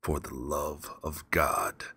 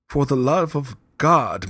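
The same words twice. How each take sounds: First: Slow, low mocking repeat; cold mocking echo. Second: Slow, high, loud pleading cry; desperate plea. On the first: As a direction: throw his plea back coldly. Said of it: "I said". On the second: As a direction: beg for your life. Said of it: "to these words". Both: A narrator's reading.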